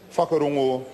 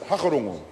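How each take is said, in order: First: The word begins with an F sound. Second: The word begins with an H sound. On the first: "they tried to get us to stop saying the F sound" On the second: "wanted us to pronounce it hakarongo, to drop the W"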